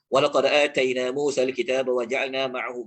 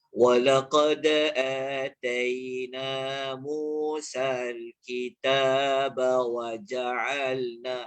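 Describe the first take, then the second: First: It is read fast and unclearly. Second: It is read slowly and clearly.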